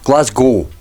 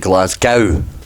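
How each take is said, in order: First: The last syllable rhymes with go. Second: The last syllable rhymes with cow. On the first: This is how locals say it. The speaker calls it right. "Get rid of that W" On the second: This is how Americans say it. The speaker calls it wrong. "for the folks across the pond, you say Glasgow, don't you? ... Americans think that we should just pronounce it gow"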